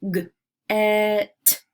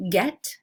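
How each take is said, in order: First: "G-, et" with a loud, held e; roller-coaster word. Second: Said in the usual way. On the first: Shown as a demonstration. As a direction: separate g, then stretch the vowel of "get". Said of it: "putting an emphasis on the middle". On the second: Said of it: "roller coaster some words".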